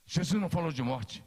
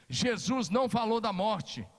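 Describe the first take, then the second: First: Said in the usual way. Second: "não" enfatizado e mais lento; stressed NÃO. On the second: Shown as a demonstration. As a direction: martele o "não" devagar. (ênfase forte em "não", fala arrastada) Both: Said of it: "presta atenção o que aconteceu".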